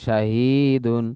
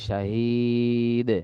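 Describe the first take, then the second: First: The word ends with the full -un ending. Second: The word ends without the -un ending. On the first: The reader continues without stopping. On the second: The reader stops on this word.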